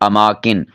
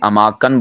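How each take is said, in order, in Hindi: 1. आख़िरी अक्षर में स्वर 'i' है। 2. आख़िरी अक्षर में स्वर 'a' है। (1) "सही है अमाकिन" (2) "बाज़ इसे अमाकन बोल देते हैं, ये गलत है"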